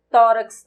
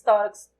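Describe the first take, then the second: First: "Tórax" with "Tó" punched loud; stress on TÓ. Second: Said in the usual way. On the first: Shown as a demonstration. Teacher showing students which syllable is stressed, emphatic. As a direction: lean hard on the "Tó" of "Tórax". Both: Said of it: "O tó é a sílaba tônica".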